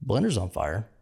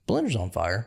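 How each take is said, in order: First: Calmly announcing a fire; lightly imitated dead-calm report; chillest voice. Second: Calm, unbothered fire report; lightly imitated deadpan alarm; chillest voice. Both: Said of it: "in the chillest voice you can imagine".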